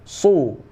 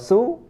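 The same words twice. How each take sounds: First: The s sound is heavy and thick. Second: The s sound is light and thin. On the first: The speaker calls it right. "Yang benar su, su tebal ya" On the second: The speaker calls it wrong. "Kalau su maka bacaannya salah"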